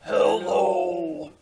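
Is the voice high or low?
low. It is said in a very low voice.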